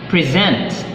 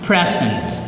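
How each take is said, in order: First: The stress is on the second syllable. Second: The stress is on the first syllable. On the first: It is used as a verb. "second syllable stress used as a verb" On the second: It is used as a noun. "first syllable stress as a noun"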